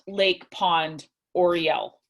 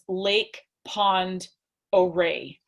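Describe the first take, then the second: First: The last word ends with an 'el' sound. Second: The last word ends with an 'ay' sound. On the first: The speaker calls it wrong. "not Lake Pond Oriel" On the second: The speaker calls it right. "it again is Lake Pond Oray"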